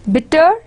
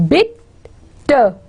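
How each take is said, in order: First: Said in the usual way. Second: "Bitter" split in two, bit, pause, ter; syllable by syllable. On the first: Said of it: "can become short". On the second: Shown as a demonstration. Teacher showing the stressed syllable, "Bitter" broken into bit and ter. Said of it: "syllable is bitter".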